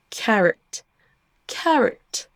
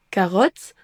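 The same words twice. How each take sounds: First: "carrot" with weak second vowel; English schwa. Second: "carotte" with a full o; French reading of "carotte"; French-style mistake. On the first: Teacher gives the correct word, English schwa. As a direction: stress first syllable of "carrot", reduce the o. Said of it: "au lieu de". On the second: Teacher predicts the learner's mistake, French-style vowels. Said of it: "vous allez certainement prononcer le mot carotte". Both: Shown as a demonstration.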